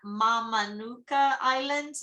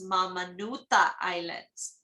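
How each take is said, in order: First: The consonant before the final vowel is a k. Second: The consonant before the final vowel is th.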